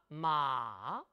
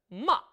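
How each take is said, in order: First: The pitch goes down slowly over a long syllable. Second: The syllable is short with a sharp, struck start. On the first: "삼성은 쭉 길게 내려옵니다" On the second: "사성은 짧게 첫 음을 탁 쳐주는데요"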